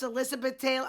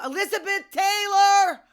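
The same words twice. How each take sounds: First: Said in the usual way. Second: Very high, loud sung outburst, last word held; sung, belt out the title like a fan; sung, belted song hook. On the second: Acted. Sung, podcaster naming a favorite [name] song, belting it.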